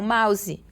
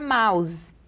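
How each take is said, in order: First: The word is said with a Brazilian pronunciation. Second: The word is said with an English pronunciation. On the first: The speaker calls it wrong. "E não mouse" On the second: The speaker calls it right. "a pronúncia correta seria mouse"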